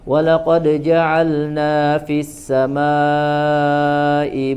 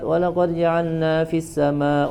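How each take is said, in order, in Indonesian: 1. Huruf L sebelum N dibaca dengan jelas. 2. L dibaca terburu-buru dan menyatu dengan N.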